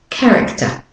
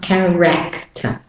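First: Said in the usual way. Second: "character" with full, unreduced vowels; mispronounced word. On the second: Shown as a demonstration. Teacher shows learners the wrong version, over-pronounced vowels. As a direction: sound out "character" with a strong "rek" in the middle. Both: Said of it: "It's not character".

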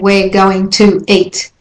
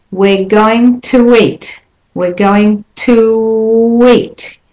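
First: "to eat" split apart with no w glide; choppy unlinked. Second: "going to eat" with "to eat" glided by a w; slow, flowing "to eat" with a w link. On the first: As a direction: say "to" and "eat" as separate chopped words. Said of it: "which sounds choppy". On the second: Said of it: "There's that linking W". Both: Shown as a demonstration.

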